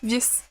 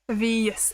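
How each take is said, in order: First: The name is said quickly as one syllable. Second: The name is said slowly, drawn out longer. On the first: This was the original intended pronunciation. "It was originally one syllable" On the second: This is the easier pronunciation adopted later. "It's just slowed down"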